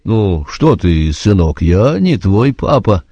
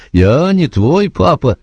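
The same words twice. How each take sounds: First: Slow, confused sergeant; flustered sergeant. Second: Raised, flustered insistence; higher flustered repeat. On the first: The sergeant, taken aback by the boy, slow and flustered. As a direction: caught off guard, slowly. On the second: The sergeant repeating himself to Joe, higher and helpless. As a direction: say it again, higher and more helpless. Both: A narrator's reading. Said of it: "растерялся сержант".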